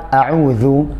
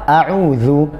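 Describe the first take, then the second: No difference in how they are said.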